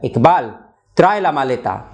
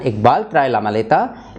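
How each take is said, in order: First: It is said as a firm command. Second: It is said as a neutral statement. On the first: Someone is told to bring the suitcase. "is a command" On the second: It reports that someone brings the suitcase. "is just a sentence which is stating a fact"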